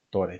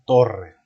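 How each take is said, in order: First: The r is a single tap. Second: The r is a strong trill. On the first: It means nothing. The speaker calls it wrong. "Si le pusiéramos una R, ya no diría torre, diría tore" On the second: It names a tower. The speaker calls it right. "para poder pronunciar esa R fuerte, tenemos que poner doble R"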